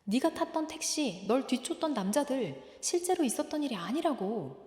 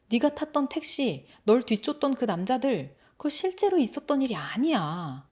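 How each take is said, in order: First: Higher, softened echo of earlier words; remembered voice. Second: Firm, full-voiced insistence; insistent calming. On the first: Acted. Brother's words coming back to the boy, a soft remembered echo. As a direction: replay the words softly, like a memory. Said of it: "했던 말이 떠오릅니다". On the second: Brother pinning the boy down to calm him, insistent. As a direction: press the point to talk him down. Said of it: "꽉 눌러서 진정을".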